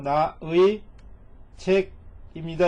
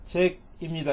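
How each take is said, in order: First: Slow translation. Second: Said in the usual way. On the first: Shown as a demonstration. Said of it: "이런 얘기죠". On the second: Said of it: "이렇게 가시면 돼요".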